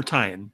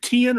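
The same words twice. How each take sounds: First: "Tian" said TIE-en; alternative pronunciation. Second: "Tian" said TEE-en; first pronunciation option. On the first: Asking co-host how it's said, Tian as TIE-en. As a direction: say "Tian" to rhyme with lion. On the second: Asking co-host how it's said, Tian as TEE-en. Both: Shown as a demonstration. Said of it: "is it Tian or Tian?".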